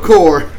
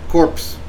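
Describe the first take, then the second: First: The word ends without any P sound. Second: The word ends with a clear P sound. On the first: The speaker calls it right. "you don't pronounce it" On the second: The speaker calls it wrong. "There's a P"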